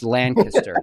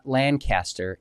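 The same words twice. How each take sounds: First: It is said the way locals pronounce it. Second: It is said the way outsiders pronounce it. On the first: The speaker is from the area. The speaker calls it right. "it's Lancaster. Did I remotely say that right?" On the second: The speaker is not from the area. The speaker calls it wrong. "it's not Lancaster"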